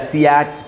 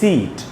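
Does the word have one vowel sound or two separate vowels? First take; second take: two vowels; one vowel. First: Two separate vowel sounds are heard in the word. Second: A single long ee vowel is heard in the word. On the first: The speaker calls it wrong. "हम ये तो नहीं बोलते ... सियाट" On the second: The speaker calls it right. "हम बोलते हैं सीट"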